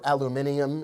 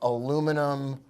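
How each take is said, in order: First: It is said the British way. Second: It is said the American way.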